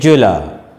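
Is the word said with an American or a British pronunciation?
British. The word is said with a British pronunciation.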